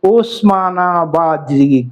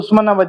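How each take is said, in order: First: The first vowel is an 'o' sound. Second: The first vowel is an 'u' sound. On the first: Outsiders said it like Osama bin Laden's name. The speaker calls it wrong. "त्याचा उच्चार ओस ओसामा bin Laden सारखा" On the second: This is the local name of the breed. The speaker calls it right. "इसको उस्मानाबादी बोलते"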